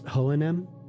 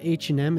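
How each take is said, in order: First: The name is said with Swedish pronunciation. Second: The name is said with English pronunciation. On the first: The speaker calls it right. "what is it in Swedish? ... it's H and M" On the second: The speaker calls it wrong. "It's not H and M"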